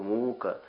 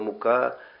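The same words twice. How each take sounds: First: The stress is on the first syllable. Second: The stress is on the second syllable. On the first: It means torment. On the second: It means flour.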